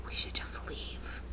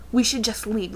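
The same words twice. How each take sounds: First: Slow, whispered escape plan. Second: Said in the usual way. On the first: Retold or imitated. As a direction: whisper it so he can't hear. Whispering to friend.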